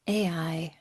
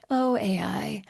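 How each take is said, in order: First: Dreaded whisper. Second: Resigned sigh. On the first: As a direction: whisper A I under your breath. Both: Real, not acted. Dreading the topic of AI.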